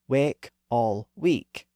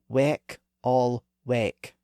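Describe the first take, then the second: First: The first vowel is mid and the second is high. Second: Both key vowels are mid vowels, and they differ. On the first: This is how it was said around 1600. "William Shakespeare would have used those newer pronunciations" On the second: This is how it was said before the vowel shift. "He would have used the vowels in positions three and two"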